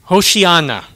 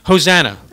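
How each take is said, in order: First: The word has an 'sh' sound. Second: The word has a plain 's' sound. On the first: This is the original Hebrew form. The speaker calls it right. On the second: This is the commonly used form. The speaker calls it wrong.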